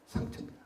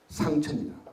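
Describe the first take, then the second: First: Softly whispered echo of 상처입니다. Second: Said in the usual way. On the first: Shown as a demonstration. Speaker echoing his point to the audience, whispered.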